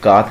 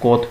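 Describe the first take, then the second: First: The vowel sounds like a long 'ah'. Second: The vowel sounds like a rounded 'oh'. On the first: The speaker calls it wrong. "कात नहीं पढ़ेंगे" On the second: The speaker calls it right. "इसको कोत पढ़ेंगे"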